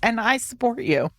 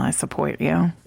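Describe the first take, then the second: First: It is said plainly and sincerely. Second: It is said with an ironic, sarcastic tone. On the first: The support is genuine. "and not in an ironic way" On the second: The speaker actually disapproves. "She's like, "Well, I support you." I never say it that way"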